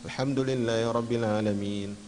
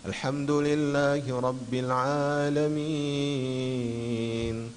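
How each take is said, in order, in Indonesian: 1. Dibaca tergesa-gesa dengan tempo cepat. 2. Dibaca dengan tempo sedang dan merata. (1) "itu terlalu cepat" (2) "itu standar, tidak terlalu cepat"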